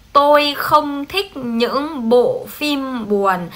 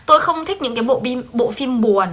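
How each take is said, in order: First: Every word drawn out very slowly; very slow, deliberate reading for students to copy; slow dictation. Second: Said in the usual way. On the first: Shown as a demonstration. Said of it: "tiếp tục câu sáu ba".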